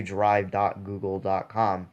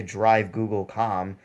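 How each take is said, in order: First: "drive dot google dot com" with every "dot" said; right way. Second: "drive Google com" run together with no "dot"; wrong way. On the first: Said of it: "you say drive dot google dot com". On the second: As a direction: say "drive Google com" as one string, skipping both "dot"s. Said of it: "You don't say drive Google com". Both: Shown as a demonstration.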